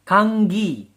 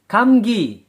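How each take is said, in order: First: The first syllable ends in an ng sound. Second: The first syllable ends in an m sound. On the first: This is how the word is actually pronounced. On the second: This is how the word is written.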